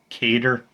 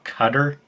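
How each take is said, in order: First: The word sounds like cater. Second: The word sounds like cutter. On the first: "it's not Cater" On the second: "It's not Cutter"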